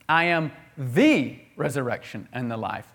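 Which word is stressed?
the. The word "the" carries the main stress. It is the only one, not one of many. "It's exclusive to Jesus"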